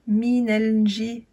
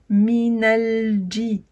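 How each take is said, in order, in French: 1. Le j est un zh doux, sans d. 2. Le j commence par un d, comme dj. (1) "Vous ne dites pas juste minel ji" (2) "il faut mettre un D et un J"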